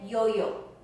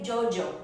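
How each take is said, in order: First: It starts with a Y sound. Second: It starts with a J-like sound. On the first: The speaker is from some regions of Mexico. "If you are from any from some regions of Mexico, you say yo-yo" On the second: The speaker is from other countries. "they say Jojo, and it sounds like the J again"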